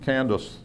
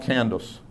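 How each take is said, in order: The two takes are said the same way.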